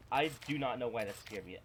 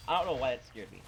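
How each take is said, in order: First: "do not" split and pressed; stress on "do not". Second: Said in the usual way. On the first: Shown as a demonstration. Gamer insisting to himself about the scare, "do not" stressed. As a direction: spell out "do not" with weight on "not".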